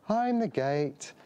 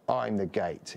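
First: It is said in a plain, gentle tone. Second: It is said in a menacing, punk tone.

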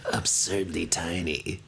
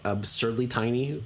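First: The words are spoken slowly and drawn out. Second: The words are spoken at a normal pace.

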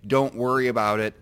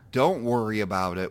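First: It is said plainly and sincerely. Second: It is said with a heavy, suffering sigh. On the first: The speaker truly does not mind. "and mean it" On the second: The speaker actually minds and wants sympathy. "with like a martyr sigh"

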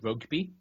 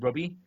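First: The G sound in the middle is pronounced. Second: The G sound in the middle is dropped. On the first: The speaker calls it right. "I couldn't say rugby" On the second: The speaker calls it wrong. "I couldn't say the G, so I kept going"

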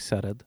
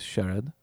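First: The name starts with a plain s sound. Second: The name is said the Sindhi way, with sh.

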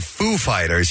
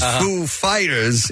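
First: The name is said with ordinary, light emphasis. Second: The name is said with extra, heavy emphasis. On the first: The speaker calls it right. "instead of going Foo Fighters" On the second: The speaker calls it wrong. "he goes Foo Fighters"

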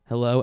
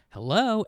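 First: It is said in a lowered, deep voice. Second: It is said in a high, cheerful voice.

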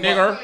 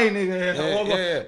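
First: The word ends in an 'er' sound. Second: The word ends in an open 'a' vowel. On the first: It is heard as a serious insult. "If you're using the ER" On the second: It is said casually, without intent to disrespect. "it's the way you say it, innit?"

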